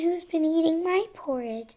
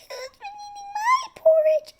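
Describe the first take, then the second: First: A soft, medium-pitched voice. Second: A tiny, high, little voice. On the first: "In her soft middle voice" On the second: "In her tiny little voice Baby Bear said"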